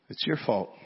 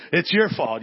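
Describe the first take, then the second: First: Low, muted accusation as a private thought; unspoken blame. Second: Said in the usual way. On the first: Retold or imitated. Pastor silently blaming his colleague at the table, muted accusation. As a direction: think it aloud softly, blaming your friend. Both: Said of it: "That's what I'm thinking".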